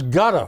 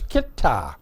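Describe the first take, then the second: First: The name sounds like the word gutter. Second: The name sounds like kit-tar. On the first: This was the earlier way of saying it. "It was gutter for a while" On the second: This is how it is said now. "K I T T A R is how they pronounce it now"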